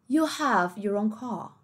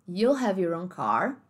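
First: It is said in a British accent. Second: It is said in an American accent. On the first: "como é que ficaria o britânico"

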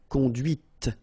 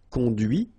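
First: The word ends with an audible T sound. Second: The word ends without a T sound. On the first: The thing driven is feminine. "here you can listen to this T" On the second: The thing driven is masculine. "final T is not pronounced"

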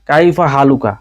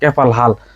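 First: It is said in full standard form with endings. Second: It is said in shortened colloquial dialect form. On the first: This is the form written in books. "বই পুস্তকে লেখা থাকে" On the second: This is how people here actually say it. "এদেশে বলে"

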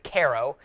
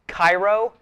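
First: The name is said the alternative way. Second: The name is said the standard way. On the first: The speaker calls it wrong. "Some people pronounce it Cairo" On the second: The speaker calls it right. "It's Cairo right here"

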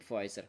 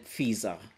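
First: The name is pronounced in an English way. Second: The name is pronounced in a German way. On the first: "я произношу Pfizer по-английски" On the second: "Немцы бы сказали Pfizer"

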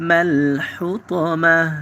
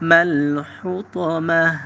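The two takes are said the same way.

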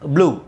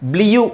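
First: The vowel is a plain 'oo' with no glide. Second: The vowel has a 'y' glide before 'oo'. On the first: The speaker calls it right. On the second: The speaker calls it wrong. "ಬ್ಲಿಯು ಅಂತ ಹೇಳಲ್ಲ ಇದನ್ನು"

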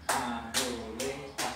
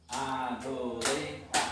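No difference in how they are said.

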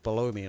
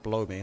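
First: The word has two clear syllables. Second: The word is squeezed into one syllable. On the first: The room ID is located under the speaker. The speaker calls it right. "I said below me" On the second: It sounds like a rude phrase. The speaker calls it wrong. "That's a different kind of blow"

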